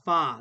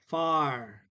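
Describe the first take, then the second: First: The word ends on the vowel, with no R. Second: The word ends with a clear R sound. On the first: "They do not make the R sound" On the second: "American English makes the R sound"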